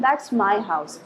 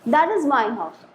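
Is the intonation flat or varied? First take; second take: flat; varied. First: The pitch stays flat across the sentence. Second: The pitch rises and falls across the sentence. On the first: The speaker calls it right. "Everybody will say that, ... That is the flat tone" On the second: The speaker calls it wrong. "Nobody will say like that"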